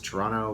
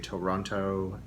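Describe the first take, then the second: First: It is said the way locals say it. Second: It is said the way outsiders say it. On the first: The speaker calls it right. "the proper way to pronounce it is Toronto" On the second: The speaker calls it wrong. "We don't say Toronto"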